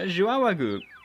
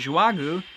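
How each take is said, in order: First: The name has an extra middle sound. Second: The name lacks the extra middle sound. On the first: The speaker calls it right. "there's an extra Y in there" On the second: The speaker calls it wrong. "I have been saying it wrong uh, because I've been saying Joagu"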